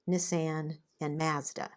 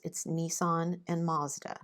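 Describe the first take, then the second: First: The names have a different, possibly Canadian pronunciation. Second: The names have the usual American pronunciation. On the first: "My husband pronounces them Nissan and Mazda. I don't know if that's a Canadian thing" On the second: "in the U S, it's Nissan and Mazda"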